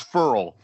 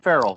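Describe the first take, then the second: First: The surname is said with one syllable. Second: The surname is said with two syllables. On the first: The speaker calls it right. "No, it's Furl" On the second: The speaker calls it wrong. "It's not even Farrell"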